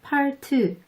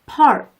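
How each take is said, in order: First: An extra vowel follows the final consonant. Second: The word ends on the bare consonant. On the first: The speaker calls it wrong. "으 받침 넣으면 안 되는 거 ... 이렇게 발음하지 마세요" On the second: The speaker calls it right. "한번 따라서 발음해 볼게요"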